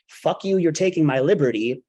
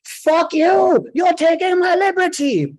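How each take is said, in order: First: Recapped outburst. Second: High, furious shouted outburst; full-force scream. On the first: Storyteller recapping what the whole plane had heard, mock yell. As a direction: replay the outburst at talking volume. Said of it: "that all heard". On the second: Shady guy to border agents in a crowded airport, screaming. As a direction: scream it at the top of your lungs. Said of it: "screams at the top of his lungs". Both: Retold or imitated.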